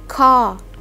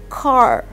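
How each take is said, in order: First: The r at the end is silent. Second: The r at the end is pronounced. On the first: "In British, you cannot pronounce the letter R" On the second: "In American English, the R is pronounced"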